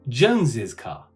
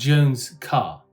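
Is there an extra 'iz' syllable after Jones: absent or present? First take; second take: present; absent. First: Jones is said with an added 'iz' syllable. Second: Jones is said without an added 'iz' syllable. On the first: "it would be appropriate if you pronounce it like Jones's car" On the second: "we'd have Jones' car"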